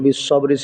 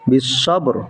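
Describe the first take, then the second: First: The word ends with a short i vowel. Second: The word ends on the bare consonant r. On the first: The reading runs on without a stop. "তাহলে বিশ্ববরি ছিল" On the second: The reader stops at this word. "অক্ফ হওয়ার কারণে রটা সাকিন হয়ে যাবে"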